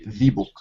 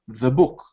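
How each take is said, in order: First: 'The' is said with a long ee vowel. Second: 'The' is said with a weak schwa vowel. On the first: The speaker calls it wrong. "You wouldn't say the book" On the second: The speaker calls it right. "you would say the book"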